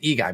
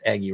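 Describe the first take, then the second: First: The name sounds like 'ee-guy'. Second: The name sounds like 'eggy'. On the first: The speaker calls it wrong. "it looks like E-Guy" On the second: The speaker calls it right. "but it's Eggy Rosario"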